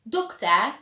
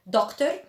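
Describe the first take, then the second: First: The word ends with an ah sound. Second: The word ends with an R sound. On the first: The speaker calls it right. "It is pronounced as an ah sound, so you'd say doctor" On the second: The speaker calls it wrong. "So we don't say doctor"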